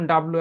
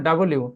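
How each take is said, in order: First: "ডাব্লিউ" squeezed, b and l run together; old habitual W. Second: "ডাব্লিউ" with a vowel between b and l; correct W. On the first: Teacher recalling the old habit, compressed W. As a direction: slur "ডাব্লিউ" into fewer syllables. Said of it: "আগে বলতাম ডাব্লিউ". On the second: Teacher modelling the new way, full W. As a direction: open it out as da-bo-liu, "ডাব্লিউ". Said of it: "এখন বলবো ডাব্লিউ।". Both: Shown as a demonstration.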